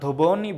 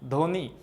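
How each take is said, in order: First: A b sound follows the first consonant. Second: No b sound follows the first consonant. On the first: The speaker calls it wrong. "ধবনি বলি না" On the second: The speaker calls it right. "বফলার উচ্চারণ হয় না"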